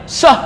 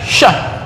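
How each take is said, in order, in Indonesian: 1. Diawali bunyi 's' yang sempit. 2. Diawali bunyi 'sh' yang melebar. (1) "Nggak mungkin ngusir ngusir ayam sah, uh, itu kurang" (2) "Ngusir ngusir ayam kan syah"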